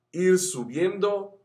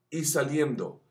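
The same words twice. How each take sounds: First: Slow, higher climb on the words; rising pitch. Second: Said in the usual way. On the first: Shown as a demonstration. Vocal coach showing students the voice climbing, slow and higher. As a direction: stretch it upward slowly. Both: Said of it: "la voz va a ir subiendo".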